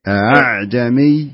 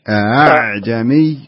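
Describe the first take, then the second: First: The second glottal stop is weakened, almost a vowel. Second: The same.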